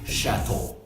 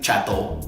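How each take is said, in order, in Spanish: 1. Empieza con un sonido 'sh' suave. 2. Empieza con un sonido 'ch' fuerte. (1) "si se hace un poquito más suave" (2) "no vamos a decir chato"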